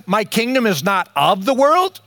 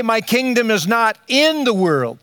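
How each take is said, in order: First: "of" stressed in "not of the world", ending on a rise. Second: "in" stressed in "not in the world", ending on a fall. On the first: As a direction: lean on "of", leave the tune hanging upward. Contrasts of with in. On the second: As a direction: lean on "in", then let the tune drop. Contrasts in with of. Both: Shown as a demonstration.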